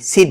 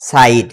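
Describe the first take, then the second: First: The vowel sounds like a short 'i'. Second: The vowel sounds like 'eye'. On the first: The speaker calls it wrong. "সিড না" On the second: The speaker calls it right. "আই এর উচ্চারণ হবে আই"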